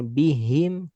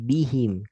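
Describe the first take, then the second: First: The last syllable is pressed hard. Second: The last syllable is said lightly. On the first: The speaker calls it wrong. "Kalau bihim sama agak tasdid ke him. Karena ketekan" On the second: The speaker calls it right. "Tapi bihim"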